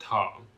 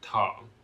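First: The word is said in the fourth tone. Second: The same.

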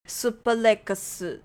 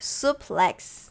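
First: It is said with a Japanese accent. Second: It is said with an English accent.

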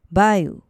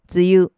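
First: It is said with the Chinese-derived reading. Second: It is said with the native Japanese reading. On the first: "而梅雨的发音属于音读" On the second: "梅雨的发音属于训读"

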